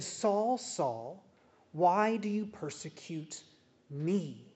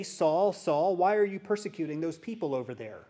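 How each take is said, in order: First: The real words, heavy and personal; what Jesus truly said, pleading and weighty; earnest true version. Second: Quick, offhand call of Saul, first Saul loud; rattled off as the false quote; what Jesus did not say, tossed off quickly; mock wrong version. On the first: Acted. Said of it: "He said". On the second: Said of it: "He did not say".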